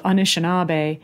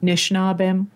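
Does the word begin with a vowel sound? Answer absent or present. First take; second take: present; absent. First: The word begins with an initial vowel sound. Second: The initial vowel is dropped, the word is shortened. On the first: "one way of saying that" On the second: "The Eastern dialect would take the A off"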